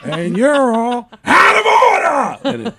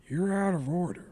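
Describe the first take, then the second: First: Slow, much higher Pacino yell; Al Pacino shout. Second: Al Pacino impression. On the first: Acted. Pacino among broken washers, peak of the shouted rant. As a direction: blow up the last line full Pacino. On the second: Pacino among broken washers, quiet opening line. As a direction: start the Pacino rant held back and quiet. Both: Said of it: "they cut to me as Al Pacino".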